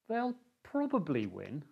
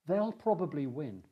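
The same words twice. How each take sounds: First: The voice sounds hesitant and unsure. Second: The voice sounds confident and sure. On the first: The win is in real doubt. "there is uncertainty in the voice" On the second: The win is fairly expected. "The speaker sounds confident"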